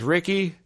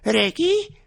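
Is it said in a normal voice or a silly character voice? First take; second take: normal; silly character. First: It is said in the speaker's normal voice. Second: It is said in Riki's silly, dumb voice.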